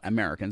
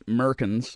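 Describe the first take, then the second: First: Every vowel is said, giving Americans. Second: The opening vowel is dropped, giving Merkins. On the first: The speaker calls it right. "not Americans" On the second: The speaker calls it wrong. "he had this really awful habit of dropping vowels"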